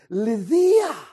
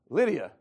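First: The name is said with a Greek pronunciation. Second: The name is said with an English pronunciation. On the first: "That's the way they pronounce it" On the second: "we said"

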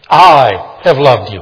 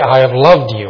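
First: The stress is on the word I. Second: The stress is on the word loved. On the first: Others do not love, but this one does. "Others don't, but I have loved you" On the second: The listener is cherished. "I cherish you"

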